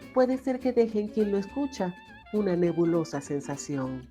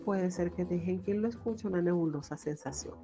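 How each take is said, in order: First: The final vowels are lengthened and drawn out. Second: The final vowels are short and clipped. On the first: "me queda un poquito más larga las vocales como quien quien lo escucha" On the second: "si lo leo normal"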